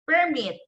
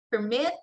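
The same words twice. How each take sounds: First: "permit" as a noun, PER high, falling on mit; stress on first syllable. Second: "permit" as a verb, per-MIT, rising at the end; stress on second syllable. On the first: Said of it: "the stress there is on the first syllable". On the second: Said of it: "the stress there is on the second syllable". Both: Shown as a demonstration.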